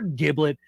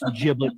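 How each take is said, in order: First: The word begins with a hard G sound. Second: The word begins with a soft G sound. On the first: The speaker calls it wrong. "It's weird when I hear people say it with a hard G" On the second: The speaker calls it right. "It's giblet to the rest of us"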